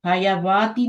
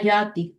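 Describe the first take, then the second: First: The word is said with an added 'wa' syllable. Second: The word is said without a 'wa' syllable. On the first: The speaker calls it wrong. "हयावाती नहीं पढ़ना।" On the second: The speaker calls it right. "अलिफ ही पढ़नी है"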